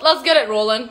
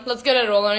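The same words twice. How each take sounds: First: With a little laugh. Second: Said in the usual way. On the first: Real, not acted. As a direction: laugh through the words.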